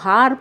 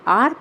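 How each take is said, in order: First: The word starts with an h sound. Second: The word starts with a vowel, no h. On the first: The speaker calls it wrong. "इसी शब्द का यदि उच्चारण आप गलत करते हैं" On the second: The speaker calls it right. "जब आप इसका सही उच्चारण करेंगे"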